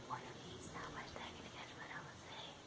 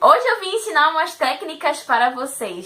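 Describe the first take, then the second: First: Soft breathy whisper, no voice. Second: Said in the usual way. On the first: Shown as a demonstration. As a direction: whisper it like a secret. Repeats intro in different volumes.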